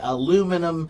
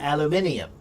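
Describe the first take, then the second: First: It is said with an American pronunciation. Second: It is said with a British pronunciation. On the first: "In American English, we say aluminum" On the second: "in British English, they have another I in the word"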